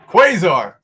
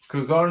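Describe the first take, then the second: First: The name begins with a kw sound. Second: The name begins with a plain k sound. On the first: The speaker calls it right. "Now, I'm saying it properly" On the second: The speaker calls it wrong. "let me say Kazar. Listen to that"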